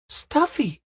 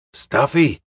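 First: Put-on high-pitched questioning "Stuffy?" in a girl's voice; surprised cry. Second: Confirming repetition. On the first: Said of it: "cried Pamela Potter". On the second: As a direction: repeat "Stuffy" firmly, as a settled fact. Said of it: "repeated Charlie". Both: A narrator's reading.

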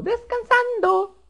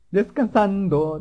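First: Very high, slow drawn-out squeak; silly falsetto. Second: Said in the usual way. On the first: Pretend. Player narrates his character resting, silly falsetto. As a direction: stretch it out in a tiny falsetto voice.

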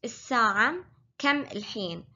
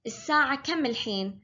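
First: الساعة كم الحين said slower and separated; slower repeat. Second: Said in the usual way. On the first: Shown as a demonstration. Teacher slowing the line for learners. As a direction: break the question into clear words. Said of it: "repeat for learners". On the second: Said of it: "full line again".

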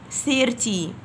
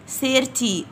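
Both takes have the same delivery.

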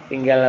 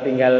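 The two takes are said the same way.

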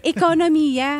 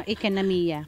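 First: EKONOMIYA with full Filipino o vowels; corrected pronunciation. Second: IKANAMIYA with English-style vowels; affected English accent. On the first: Shown as a demonstration. Teased speaker repeating herself, corrected Filipino pronunciation. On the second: Real, not acted. Singer naming her song's audience, affected English accent. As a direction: say IKANAMIYA in an Americanized Taglish accent. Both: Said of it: "Ang arts, ekonomiya".

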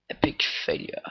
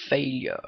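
First: Whispered. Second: Said in the usual way. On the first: Real, not acted. Repeats verdict in a whisper.

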